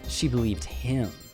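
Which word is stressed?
him. The word him carries the stress. "Let me stress each word"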